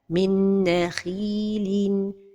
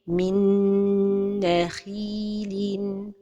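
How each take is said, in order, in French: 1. La nasale est coupée court. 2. La nasale est tenue plus longtemps. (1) "L'erreur et la prononciation sont données de temps pour la ghunna" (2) "la prononciation correcte est"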